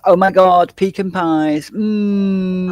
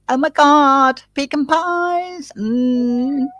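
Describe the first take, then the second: First: It is said in the speaker's normal voice. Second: It is said in a put-on accent.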